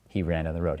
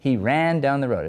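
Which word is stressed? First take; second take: none; ran. First: It is said flat, with no word stressed. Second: The word ran gets strong stress. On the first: The speaker calls it right. "Memorize monotone" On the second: The speaker calls it wrong. "why are you stressing ran?"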